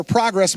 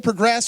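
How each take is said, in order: First: "progress" as PROG-ress; noun pronunciation. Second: "progress" as pruh-GRESS; verb pronunciation. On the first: Pastor defining a word, "progress" said as the noun PROG-ress. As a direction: stress the first syllable of "progress". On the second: Pastor defining a word, "progress" said as the verb pruh-GRESS. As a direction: stress the second syllable of "progress". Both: Shown as a demonstration.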